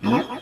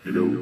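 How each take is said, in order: First: The voice is high and squeaky like a chipmunk. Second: The voice is processed to sound like a demon. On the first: "Para siyang chipmunk" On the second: "parang demonyo naman yung boses ko nito"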